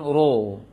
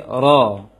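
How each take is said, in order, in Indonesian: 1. Bibir dimonyongkan ke depan pada vokal itu. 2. Bunyinya terasa berat tanpa memonyongkan bibir. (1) "jangan ro" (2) "tapi ro"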